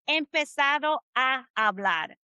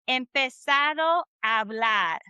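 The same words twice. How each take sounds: First: The two A sounds are said separately. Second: The two A sounds blend into one. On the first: The speaker calls it wrong. "It's not empezado a hablar. That's not what you're going to hear" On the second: The speaker calls it right. "This kind of meshes together the two A's. So it sounds like this"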